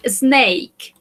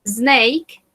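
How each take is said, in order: First: Snake said clearly, falling tune; teacher modelling the word snake; model pronunciation. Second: Snake said again with a rising tune; teacher repeating the word Snake; repeated model word. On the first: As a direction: pronounce snake slowly and clearly. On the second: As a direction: repeat Snake clearly for the class. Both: Shown as a demonstration. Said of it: "So, number one".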